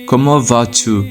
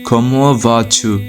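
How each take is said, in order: No difference in how they are said.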